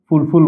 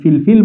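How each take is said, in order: First: Both syllables have an 'oo' vowel. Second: Both syllables have an 'ee' vowel. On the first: "ফুলফুল বলতে পারি" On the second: "ফিলফিল বলতে পারি"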